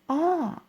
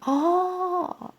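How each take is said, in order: First: The sound is said with a tone of realization. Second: The sound is said with a tone of surprise. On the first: The speaker has finally understood something. "I give a sound of understanding. Yes, I got it" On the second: The speaker is surprised by something that happened. "my God, what happened?"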